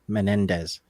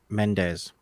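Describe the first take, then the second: First: The name is said with three syllables. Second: The name is said with two syllables. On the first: The speaker calls it right. "instead of" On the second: The speaker calls it wrong. "which is how I pronounced it"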